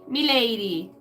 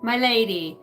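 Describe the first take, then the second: First: "Me lady" said with "me" for "my", a put-on old-fashioned voice; mock courtly "Me lady". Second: Said in the usual way. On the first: Shown as a demonstration. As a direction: tip the hat on "Me lady", "my" turned to "me".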